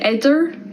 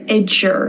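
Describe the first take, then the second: First: The middle consonant is a plain D sound. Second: The middle consonant is a J sound. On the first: The speaker calls it wrong. "I don't say idder" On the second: The speaker calls it right. "Notice how I pronounce that like a J"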